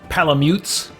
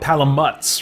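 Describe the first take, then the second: First: The last syllable sounds like mute. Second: The last syllable sounds like mutt. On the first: The speaker calls it wrong. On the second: The speaker calls it right.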